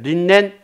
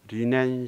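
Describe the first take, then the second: First: An n sound closes the first syllable. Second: The first syllable ends in an open vowel. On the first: The speaker calls it wrong. "린넨이 아니라" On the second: The speaker calls it right. "그대로 리넨 셔츠"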